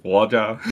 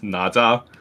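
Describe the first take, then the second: First: The name is said with Mandarin pronunciation. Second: The name is said with Cantonese pronunciation. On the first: "you speak Mandarin, it's like Waja" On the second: "If you speak Cantonese, it's Naja"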